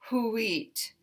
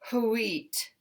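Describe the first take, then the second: Both takes have the same delivery.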